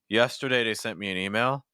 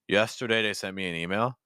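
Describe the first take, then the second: First: The voice is placed low, down in the chest. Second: The same.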